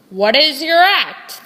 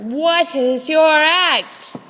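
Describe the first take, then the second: First: Loud, brisk ringmaster question; brusque ringmaster. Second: Loud, slowed-down ringmaster; slow emphatic repeat. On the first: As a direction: snap it at the auditioner. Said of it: "the ringmaster said". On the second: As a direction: spell it out slowly, losing patience. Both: Acted.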